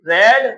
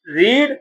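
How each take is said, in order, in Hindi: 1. स्वर छोटा है, 'red' जैसा। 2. स्वर लंबा है, 'reed' जैसा। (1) "रेड हमारी सेकंड फॉर्म हो गई" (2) "रीड हमारी फर्स्ट फॉर्म होती है"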